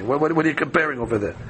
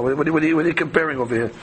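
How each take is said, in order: First: Fast stammering what-what-what, mild mock indignation; rapid sputtering protest. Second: Fast sputtering what-what-what, mock indignant; rapid sputtering protest. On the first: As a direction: fire off the repeated what like a flustered rabbi. Same protest repeated. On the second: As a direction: rush out the repeated what like a flustered rabbi. Rabbi's stammering indignant protest.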